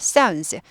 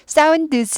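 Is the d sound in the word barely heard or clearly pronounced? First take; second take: barely heard; clearly pronounced. First: The d sound is buried and barely heard. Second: The d sound is clearly pronounced. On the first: The speaker calls it right. "드가 발음이 안 나는 건 아니지만 묻혀서 별로 들리지 않습니다" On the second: The speaker calls it wrong. "sounds 하지 않아요"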